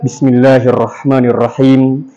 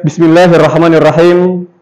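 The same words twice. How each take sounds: First: "Bismillahirrahmanirrahim" slow on one low, even note; low, slow monotone "Bismillahirrahmanirrahim"; correct flat intonation. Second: "Bismillahirrahmanirrahim" with melody moving up and down; rolling Indonesian-style tune on "Bismillahirrahmanirrahim"; incorrect wavy intonation. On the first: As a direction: keep "Bismillahirrahmanirrahim" low and level. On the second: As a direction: let the pitch wave through "Bismillahirrahmanirrahim". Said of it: "Jadi bukan". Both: Shown as a demonstration.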